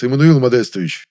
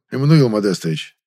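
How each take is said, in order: First: "Эммануил Модестович" cried out loud and overjoyed; happy cry. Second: "Эммануил Модестович" said soft and coaxing; soft, enveloping. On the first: Overjoyed director shouting the young man's name, happy cry. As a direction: shout his name in delight. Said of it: "буквально вскричал счастливый". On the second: Director coaxing the young man by name, soft and enveloping. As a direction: coax him gently by name. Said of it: "обволакивающим мягким голосом". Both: Acted.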